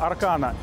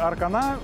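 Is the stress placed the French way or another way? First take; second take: another way; French way. First: The stress is not placed the French way. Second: The stress is placed the French way.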